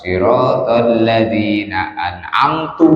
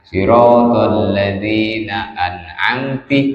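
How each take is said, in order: First: The last word ends with a u vowel. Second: The last word ends with an i vowel. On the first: It refers to the speaker. "dengan domanya tak dibaca an'amtu" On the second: It refers to a single woman. "dengan kasrohnya ta"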